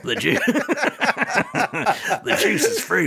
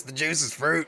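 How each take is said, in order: First: High, gravelly-free cartoon ghoul; Beetlejuice voice. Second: Weak Beetlejuice voice. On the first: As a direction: play the ghoul, pitched up. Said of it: "so you're doing better than me". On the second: Pretend. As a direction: try the ghoul voice and miss. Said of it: "I can't do it at all".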